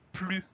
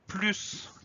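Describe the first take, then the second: First: The final S sound is silent. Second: The final S sound is pronounced.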